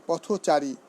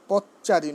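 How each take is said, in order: First: পথচারী as potho-chari, linking o sounded; correct pronunciation. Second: পথচারী as pot-chari, linking o dropped; wrong pronunciation. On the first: Teacher answering how it should be said, correct pronunciation. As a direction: say পথচারী with an o after th. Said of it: "উচ্চারণ কী হবে". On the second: Teacher showing students what to avoid, wrong pronunciation. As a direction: say পথচারী clipped to pot-chari, no middle vowel. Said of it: "নয়". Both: Shown as a demonstration.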